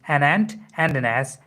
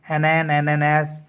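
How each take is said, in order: First: The t of "ant" is clearly pronounced. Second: The t of "ant" is dropped and words blur. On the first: The speaker calls it right. "So it would be" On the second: The speaker calls it wrong. "They read like an an and an ass"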